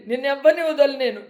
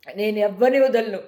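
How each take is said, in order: First: Said in the usual way. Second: Slow, lower, deadly serious vow; grim vow. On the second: Real, not acted. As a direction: lower and slower, each word a promise. Vowing revenge on trolls. (నెమ్మదిగా, లోగొంతుతో గట్టి ప్రతిజ్ఞ)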